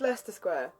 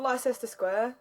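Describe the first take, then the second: First: The first word is said with two syllables. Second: The first word is said with three syllables. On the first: The speaker calls it right. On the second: The speaker calls it wrong. "It's not"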